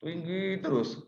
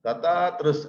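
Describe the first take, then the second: First: Pitched way up and drawn out; too high. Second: DATAR TERUS held on one level note; "Datar" stretched out on an unchanging raised pitch; monotone demo. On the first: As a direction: hold a slow, high, unvarying note. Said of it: "terlalu tinggi". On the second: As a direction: drone "Datar terus" without any rise or fall. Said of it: "Janganlah berpidato dengan nada selalu datar". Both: Shown as a demonstration.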